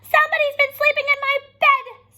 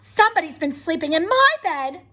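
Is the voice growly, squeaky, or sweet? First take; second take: squeaky; sweet. First: A high, squeaky Baby Bear voice. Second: A sweet, low Mama Bear voice.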